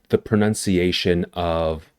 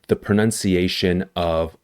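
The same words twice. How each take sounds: No difference in how they are said.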